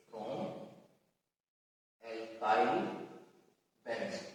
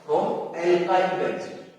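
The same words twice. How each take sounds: First: Low, soft, one word at a time; hushed, lower voice with pauses between words; writing aloud. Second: Said in the usual way. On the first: Real, not acted. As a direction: murmur each word slowly as you write, long gaps. Repeats it while writing it down.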